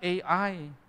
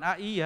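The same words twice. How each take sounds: First: The letters are read with English letter names. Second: The letters are read with Indonesian letter names. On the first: The speaker calls it right. "I itu kan baca I. Jadi kita bilang A I" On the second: The speaker calls it wrong. "bukan A I ya"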